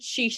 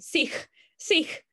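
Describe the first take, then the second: First: The word ends with an sh sound. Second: The word does not end with an sh sound. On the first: The speaker calls it wrong. "he used to pronounce it sheesh" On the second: The speaker calls it right. "no, lame"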